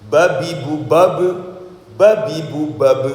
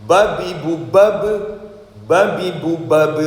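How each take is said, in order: No difference in how they are said.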